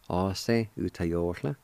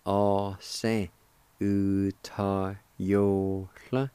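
First: All se U ta yo hla said at normal speed, hla with a breathy lateral; fluent All se U ta yo hla; native pronunciation. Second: All se U ta yo hla drawn out very slowly, hla rising; very slow careful All se U ta yo hla; native pronunciation. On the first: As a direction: say All se U ta yo hla in one easy flow. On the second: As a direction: stretch All se U ta yo hla slowly, ending in a rise on hla. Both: Shown as a demonstration. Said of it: "And together".

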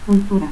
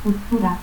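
First: Said in the usual way. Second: Cultura as "cuttura". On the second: Shown as a demonstration. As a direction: cut the L of Cultura to a stop. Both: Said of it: "confusión de L y T al final de sílaba".

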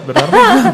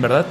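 First: Laughing. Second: Said in the usual way. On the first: Real, not acted. Teasing laugh about eating men.

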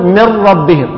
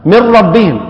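First: من ربهم as مِرَّبِّهِم, full doubled ra; no trace of the nun in من ربهم; idgham demo. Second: من ربهم read as مِرَّبِّهِم; nun merged into ra. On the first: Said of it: "بهذه الطريقة". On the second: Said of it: "كما نقول". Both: Shown as a demonstration.

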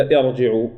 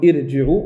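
First: ارجعوا with a full, heavy r. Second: ارجعوا with a light, thin r; teacher poses the wrong option, ارجعوا with a thinned ra. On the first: Teacher offering students the correct option, ارجعوا with heavy ra. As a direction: thicken the ra in ارجعوا. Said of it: "تفخم راء". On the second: Teacher asking students which reading is right, ارجعوا with thin ra. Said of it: "لا ترقق راء هنا". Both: Shown as a demonstration.

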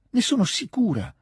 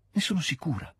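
First: Passionate near-shout of "ne sono sicura" to the dying man; almost a cry. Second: A higher, hushed first "Ne sono sicura", holding back; "Ne sono sicura" said high but soft, the cry still held in; rising certainty. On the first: ("ne sono sicura" quasi gridato, molto più acuto e forte) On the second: ("Ne sono sicura" detto acuto ma sommesso, trattenuto) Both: Acted. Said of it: "gridò quasi Natascia".

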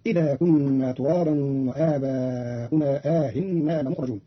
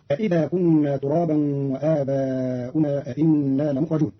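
First: "إذا" with one hamza, "أإنا" as aa with eased second hamza; slow recitation, single i-start on "إذا", long aa opening "أإنا"; statement, then question form. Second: Said in the usual way. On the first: Shown as a demonstration. Teacher shows Qalun's reading, single hamza on "إذا", double on "أإنا". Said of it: "بالإخبار في الموضع الأول والاستفهام في الموضع الثاني". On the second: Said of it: "قرأ قالون كلمتين أإذا، أإنا".

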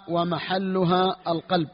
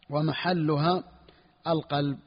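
First: Slow dictation. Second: Said in the usual way. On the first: Shown as a demonstration. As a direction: stretch each word slowly for students copying. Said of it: "teacher dictates the matn slowly". (قراءة بطيئة للإملاء) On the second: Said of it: "repeats the phrase normally".

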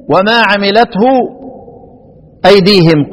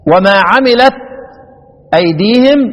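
First: وما عملته with a clear final ha sound; reading with the ha. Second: وما عملت ending on the t with no ha; reading without the ha. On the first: Teacher contrasting readings, عملته with the ha sounded. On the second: Teacher contrasting readings, عملت without the final ha. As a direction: cut عملت off at the t. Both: Shown as a demonstration. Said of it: "يقرأ بالهاء وبحذف الإيه؟".

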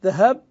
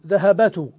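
First: ذهبت said dhahabtu, the ba held silent with sukun; correct sukun form. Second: ذهبت pronounced dhahabatu, four open syllables with the ba voweled; abandoned full-vowel form. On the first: Teacher giving students the correct form with the ba stilled. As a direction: say ذهبت with a clipped, voweless ba. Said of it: "بتسكين آخر الفعل وهو الباء". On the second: Teacher showing students the heavy form Arabs abandoned, all vowels voiced. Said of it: "فالقياس المهجور المتروك". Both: Shown as a demonstration.

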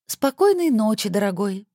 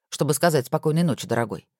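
First: Affected high, slow sweet voice; valley girl. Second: Said in the usual way. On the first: Acted. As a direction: coo it back in a mannered voice. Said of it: "манерным голосом сказала Александра". (манерным голосом, высоко и протяжно)

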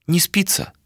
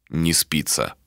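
First: Light high rising question. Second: Low, quieter falling reply; low flat answer. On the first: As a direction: ask it lightly, rising at the end. Malika asks, Ishtar echoes. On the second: Ishtar echoes Malika's question. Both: Acted.

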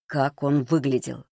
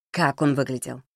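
First: Drawn-out, pressing question; slow insistent repeat. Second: Said in the usual way. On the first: A narrator's reading. Володя interrogating Маришка after shaking her, slow and insistent. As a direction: press the question slowly and evenly.

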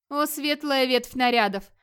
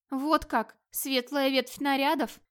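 First: Slow, higher, affectionate address; tender but firm. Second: Higher, offended echo of an endearment; hurt. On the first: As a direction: address a beloved gently yet firmly. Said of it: "ласково, но очень твёрдо". (ласково, но твёрдо, протяжно) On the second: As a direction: throw it back as a slow, wounded question. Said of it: "обиженно подумала Эльдис". (обиженно, с упрёком) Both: A narrator's reading.

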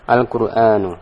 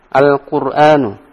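First: Said in the usual way. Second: Al-Qur'anu drawn out slowly and louder, syllable by syllable; teacher's slow clear model of Al-Qur'anu; slow model reading. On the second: Shown as a demonstration. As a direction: spell out Al-Qur'anu slowly for the class. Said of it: "teacher models the word".

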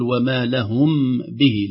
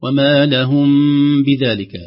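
First: وما لهم به with the meem pronounced fully before the ba; slow, separated لهم به with a distinct meem; wrong clear meem. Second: وما لهم with the meem hidden into the ba, nasal and light; louder, slower لهم به with the meem concealed. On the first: Teacher demonstrating the wrong clear meem. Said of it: "لا نقول". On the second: Teacher demonstrating the correct hidden meem. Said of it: "نقول". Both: Shown as a demonstration.

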